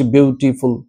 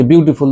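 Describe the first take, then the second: First: beautiful broken into syllables, with small stops; pausing between syllables. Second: Said in the usual way. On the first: Shown as a demonstration. Teacher showing how the word breaks into syllables, beautiful said with pauses. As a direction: say beautiful in separate pieces, halting after each syllable. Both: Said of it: "দেখো আমরা থামছি".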